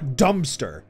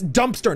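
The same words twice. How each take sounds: First: The first part sounds like 'dumb' without a p. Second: The first part sounds like 'dump' with a p. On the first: The speaker calls it wrong. "not dumpster. We're not dumb" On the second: The speaker calls it right. "it's dumpster"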